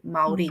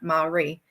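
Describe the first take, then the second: First: The r is a quick tap of the tongue. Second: The r is a soft English-style r. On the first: The speaker calls it right. "that hard R sound, the rolling of the Ari" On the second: The speaker calls it wrong. "so it's still, you know"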